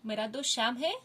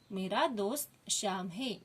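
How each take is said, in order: First: "मेरा दोस्त श्याम है" with a rising question ending on "है"; question tune. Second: "मेरा दोस्त श्याम है" read slowly as a plain statement; statement tune. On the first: Teacher reading the sentence as a question. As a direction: ask it, lift the end. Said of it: "प्रश्न चिन्ह लगाती हूँ". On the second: Teacher reading the sentence as a statement. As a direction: say it as a finished statement. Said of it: "ये खड़ी line लगा दूँ". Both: Shown as a demonstration.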